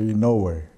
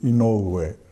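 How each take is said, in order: First: Some vowels in the name are blended together. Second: Every vowel in the name is pronounced separately. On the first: This is how colleagues say it. "most of my colleagues would say Inoue" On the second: This is how a family elder says it. "If my grandfather called me, it would be Inoue. ... all the vowels are pronounced"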